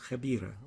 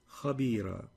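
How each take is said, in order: First: The kh sound is light and thin. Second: The kh sound is heavy and emphatic. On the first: The speaker calls it wrong. "You've pronounced that as" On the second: The speaker calls it right. "the right way of pronouncing it"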